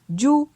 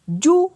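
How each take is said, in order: First: The syllable has a mid tone. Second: The syllable has a high tone. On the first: "ton moyen" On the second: "pour un ton haut"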